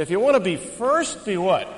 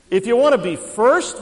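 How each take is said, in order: First: Said in the usual way. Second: Calling to the crowd. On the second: Shown as a demonstration. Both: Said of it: "we'll try the center section".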